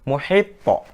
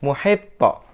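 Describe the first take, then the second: First: The final consonant ends with an echoing bounce. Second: The final consonant ends with an echoing bounce.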